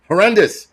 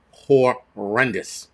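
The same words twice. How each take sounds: First: HORRENDOUS punched out high and loud; emphatic repeat. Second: HORRENDOUS stretched out very slowly; drawn out. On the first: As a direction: hit "Horrendous" louder and higher, in one go. Repeats verdict, now emphatic. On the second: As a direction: drag out each syllable of "Horrendous". Repeats verdict, first drawn out. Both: Real, not acted.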